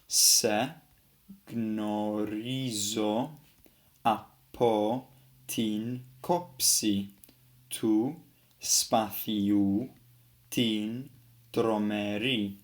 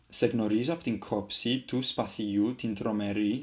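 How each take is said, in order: First: It is read slowly and carefully, word by word. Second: It is read fluently, with words running together. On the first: "just reading normally, just a bit slower" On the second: "a little bit more like how a Greek would actually read it"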